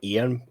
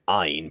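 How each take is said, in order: First: The name sounds like two syllables, Ian. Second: The name sounds like one syllable, rhyming with line. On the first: This was the original way the name was said. "pronounced it Ian" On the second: This is the way everyone else said the name. "everyone was saying Ein"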